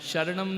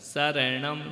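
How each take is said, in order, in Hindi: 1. शब्द की शुरुआत 'sh' ध्वनि से होती है। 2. शब्द की शुरुआत सादी 's' ध्वनि से होती है। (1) "नहीं, सब गलत बोलते हैं" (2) "शक्कर का नहीं, सड़क का"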